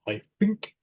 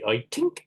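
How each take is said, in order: First: The th in think is said as f. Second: The th in think is said as t. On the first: "they pronounce it like an F" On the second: "The Irish might say"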